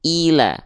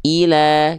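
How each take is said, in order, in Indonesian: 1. Vokal pertama terdengar seperti i yang jelas dan tinggi. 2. Vokal pertama terdengar seperti i yang jelas dan tinggi.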